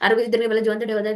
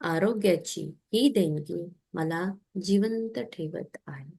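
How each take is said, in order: First: The sentence is said quickly and hurriedly. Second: The sentence is said slowly and calmly. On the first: It is rushed through without feeling. The speaker calls it wrong. "असं नाही म्हणायचं" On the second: It is said with mindful gratitude. The speaker calls it right. "असं हळू म्हणायचं"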